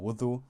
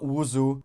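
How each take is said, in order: First: The middle consonant is not a z sound. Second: The middle consonant is a z sound. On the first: The speaker calls it right. "it's it's a wudu or wudu" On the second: The speaker calls it wrong. "Don't say wuzu with a Z"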